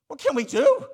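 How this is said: It is cried out in a helpless, desperate way. A plea from people who feel condemned. The speaker calls it right. "this is a cry of helplessness"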